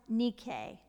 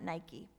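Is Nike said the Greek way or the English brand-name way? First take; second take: Greek; English. First: The word is said with its Greek pronunciation. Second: The word is said like the English brand name. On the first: The speaker calls it right. "it's pronounced Nike" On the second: The speaker calls it wrong. "not Nike"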